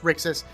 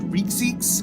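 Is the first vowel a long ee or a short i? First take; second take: short i; long ee. First: The first vowel is a short i sound. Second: The first vowel is a long ee sound. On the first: The speaker calls it right. "It looks like it should be pronounced Rixus" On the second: The speaker calls it wrong. "those long E's like Rixix, because that sounds weird"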